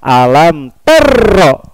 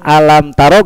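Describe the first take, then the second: First: The consonant is doubled with pressure. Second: The consonant is read plain without pressure. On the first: The speaker calls it wrong. "lisan kita mengucapkan dengan suara tekanan" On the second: The speaker calls it right. "Tidak ada tanda tasdid"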